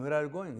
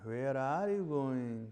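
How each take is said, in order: First: It sounds like a plain request for information. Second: It sounds doubtful and uncertain.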